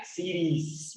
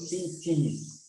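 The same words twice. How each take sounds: First: Cities with the middle T tapped like a soft R. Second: Cities with a crisp middle T; clear T. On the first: Teacher shows the plural cities, tapped T. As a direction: say cities slowly, American flapped T. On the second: Teacher shows the plural cities, clear T. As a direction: say cities slowly with a full T sound. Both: Shown as a demonstration. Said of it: "se intenta pronunciar un poco como la R".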